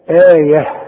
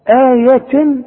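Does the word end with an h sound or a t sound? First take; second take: h sound; t sound. First: The word ends with an h sound. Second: The word ends with a t sound. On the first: The reader stops on this word. "إنما إذا وقفت هتديها هاء" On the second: The word continues into the next word. "آية إذا وصلت"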